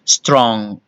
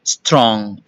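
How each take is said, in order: Both takes have the same delivery.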